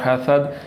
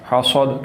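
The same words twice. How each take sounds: First: The s sounds soft, like a th. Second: The s sounds heavy and full. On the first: "नरम पढ़ा जा रहा है" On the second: "मैं पुर करके पढ़ रहा हूँ"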